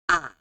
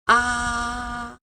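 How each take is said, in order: First: The pitch dips low then rises again. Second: The pitch stays high and level. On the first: "It starts here, goes down, and then go up again" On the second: "starts with a high pitch, like here, and it goes flat"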